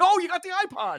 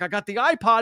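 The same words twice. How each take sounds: First: Imitated thrilled reaction, pitched way up; high, distracted delight, acted out; excited reply. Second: Said in the usual way. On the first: He answers Ronnie about the iPod, excited.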